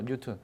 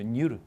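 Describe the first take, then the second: First: The middle consonant is a clear, hard t. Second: The middle consonant is a soft, r-like flap. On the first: "뉴턴이라고 쓸 때는 뉴턴이라고 써도" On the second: "원래 정확하면 뉴른이죠"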